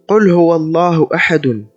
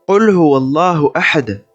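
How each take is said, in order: First: The last word ends with the vowel ending -un. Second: The last word ends abruptly on the consonant d. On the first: This is the full form without stopping. "ce verset qui s'écrit" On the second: The reader stops at the end of the verse. "Il sera lu en cas d'arrêt sur sa dernière lettre"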